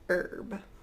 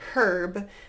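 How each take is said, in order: First: The word begins directly with the vowel. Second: The word begins with an audible h sound. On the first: "in the North American English accent, we usually say herb" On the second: "If you're from British English pronunciation background, you might hear herb"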